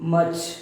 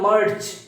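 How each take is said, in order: First: The r sound is silent. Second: The r sound is clearly pronounced. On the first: The speaker calls it right. "আর এর উচ্চারণটা hidden হয়ে যায়" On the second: The speaker calls it wrong. "আগে আমরা বলতাম merge, it's not merge"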